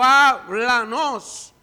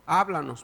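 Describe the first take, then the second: First: Háblanos stretched slow and loud; drawn-out plea. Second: Said in the usual way. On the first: Real, not acted. Pastor begging God to speak, Háblanos drawn out loudly.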